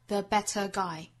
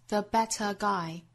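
The two takes are said the same way.

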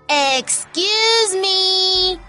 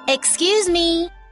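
First: It is said loudly. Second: It is said quietly.

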